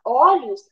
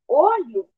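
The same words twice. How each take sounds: First: "olhos" with an open first vowel, as "ólhos". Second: "olho" with a closed first vowel, as "ôlho". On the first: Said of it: "ela é aberta". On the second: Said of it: "o som da vogal O é fechada". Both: Shown as a demonstration.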